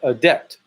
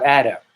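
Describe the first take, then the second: First: The word is said like 'a-dept'. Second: The word is said like 'add up'. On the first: The speaker calls it right. "But it's a- adept" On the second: The speaker calls it wrong. "not adept"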